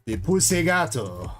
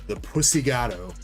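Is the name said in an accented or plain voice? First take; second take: accented; plain. First: It is said in a put-on foreign accent. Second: It is said in a plain, normal voice.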